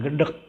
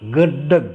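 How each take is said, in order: First: The word ends with a k sound. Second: The word ends with a g sound. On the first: This is how people say it nowadays. The speaker calls it wrong. "bukan gedek" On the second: This is the old Betawi way of saying it. The speaker calls it right. "belakangnya pakai G"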